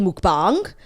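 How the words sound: It is said with a Korean-like pronunciation.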